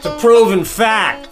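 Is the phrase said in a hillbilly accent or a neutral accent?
hillbilly. It is said in a put-on hillbilly accent. "give me like a hillbilly version"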